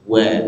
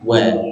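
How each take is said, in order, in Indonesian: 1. Bunyi w dibuat dengan bibir membulat kuat. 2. Bunyi w dibuat dengan bibir membulat kuat.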